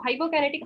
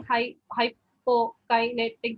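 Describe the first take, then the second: First: Said in the usual way. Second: "hypokinetic" split slowly syllable by syllable, hy-po-ki-ne-tic; broken syllables. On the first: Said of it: "that's how they break it up". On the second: Shown as a demonstration. Student demonstrating broken dysarthric speech to examiner, slow syllable by syllable. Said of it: "break it up into individual syllables".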